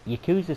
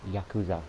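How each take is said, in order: First: It is pronounced in an English-style way. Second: It is pronounced in a Japanese-style way. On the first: The speaker calls it wrong. "I know I'm saying it wrong" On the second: The speaker calls it right. "I know it's Yakuza"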